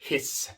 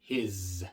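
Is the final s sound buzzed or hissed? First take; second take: hissed; buzzed. First: The final s is a voiceless hiss. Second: The final s is a voiced buzz. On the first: The speaker calls it wrong. "No digas his, porque his es el sonido que hace la serpiente" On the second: The speaker calls it right. "Es his"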